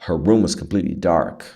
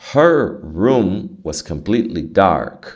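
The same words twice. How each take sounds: First: The sentence is spoken fast, words run together. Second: The sentence is spoken slowly, words kept apart. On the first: The speaker calls it right. "quanto mais rápido" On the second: The speaker calls it wrong. "Se você falar muito devagar, não fica natural"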